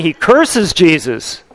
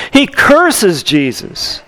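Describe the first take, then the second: First: Said in the usual way. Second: Curses stressed, said slowly and deliberately; preacher repeating to Peter's betrayal, lean on curses slowly; slow emphatic repeat. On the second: Shown as a demonstration.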